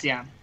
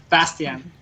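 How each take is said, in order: First: "Bastian" repeated firmly with a falling end; careful pronunciation. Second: "Bastian" slowly in an American accent. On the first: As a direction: copy the name "Bastian" carefully after being corrected. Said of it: "let's see if I can pronounce this". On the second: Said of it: "American accent". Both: Shown as a demonstration.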